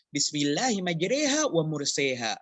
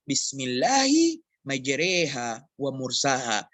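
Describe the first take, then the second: First: Both key words have the 'e' vowel. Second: Only the first key word has the 'e' vowel. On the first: This is how another reading tradition has it. "Jika semuanya imalah dalam qiraah lain" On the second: This is the reading used by most in Indonesia. "Hanya dibaca di satu ayat dalam uh, qiraah yang dipakai di Indonesia"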